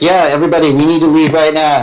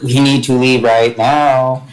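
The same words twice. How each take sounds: First: Higher-pitched, lightly acted urgency; rally the crowd to clear out; brisk call to the group; urging everyone out. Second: Slow, deliberate hint to a companion; slow prompting, words drawn out; pointed nudge. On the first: Character urges crowd to leave. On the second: Acted. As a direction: stretch it out meaningfully. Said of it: "Kim nudges Galliford".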